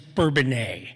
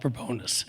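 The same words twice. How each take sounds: First: The name is pronounced the French way. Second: The name is pronounced the American way. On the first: "go back to the French pronunciation" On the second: "I still call it"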